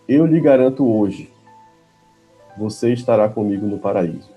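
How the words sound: The pause comes after the word 'hoje'. The promise is made today; the paradise comes later.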